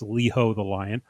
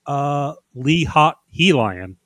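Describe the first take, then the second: First: The name is split as 'Leho the Lion'. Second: The name is split as 'Lee Hot He Lion'. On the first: This is the owner's intended pronunciation. "tell us how to properly pronounce it" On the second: This reading sounds cooler. "I think I prefer Lee Hot He Lion"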